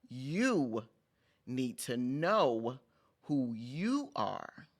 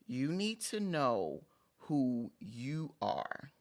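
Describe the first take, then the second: First: "You", "know" and "you" each set apart with pauses, "know" rising; stress on YOU, KNOW, YOU. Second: "You need to know who you are" slow and even, stress on "need"; slow emphatic statement. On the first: Vlogger repeating her message with new emphasis, slow and spaced. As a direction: pause after "You" and drag "need to know" slowly. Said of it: "emphasize the words differently".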